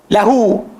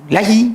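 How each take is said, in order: First: The word ends with an u vowel. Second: The word ends with an i vowel. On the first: The pronoun keeps its fixed ending. The speaker calls it right. "Ha dhamir adalah mabni" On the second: The ending wrongly follows the preposition. The speaker calls it wrong. "Tak boleh"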